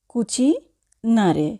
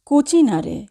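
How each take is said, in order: First: Cucinare slowly in two parts, "cuci... nare"; teacher's slow breakdown of cucinare, cuci, then nare; slow, split word. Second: Said in the usual way. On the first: Shown as a demonstration.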